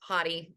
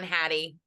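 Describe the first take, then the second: First: The first vowel sounds like in 'hot'. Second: The first vowel sounds like in 'hat'.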